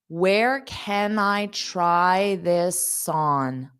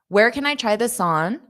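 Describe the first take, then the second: First: The sentence is spoken slowly. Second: The sentence is spoken quickly. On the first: "I'll say it slow" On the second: "then I'll say it fast"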